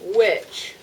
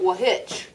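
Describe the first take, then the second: First: No H sound is pronounced after the W. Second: An H sound is pronounced after the W. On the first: The speaker calls it right. "you don't hear the H" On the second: The speaker calls it wrong. "It's not wahitch"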